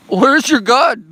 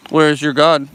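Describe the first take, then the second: First: High, very loud taunting yell; mock maniacal yell. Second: Loud taunt at normal pitch; mock menacing taunt. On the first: Streamer taunting chat in jest, escalating to a yell. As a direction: escalate into a hammed-up high shout. Same taunt repeated higher and louder. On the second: Streamer taunting chat in jest, loud mock menace. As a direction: demand it loudly in mock menace.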